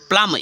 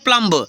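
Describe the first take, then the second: First: The final b is silent. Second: A final b sound is pronounced. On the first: The speaker calls it right. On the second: The speaker calls it wrong.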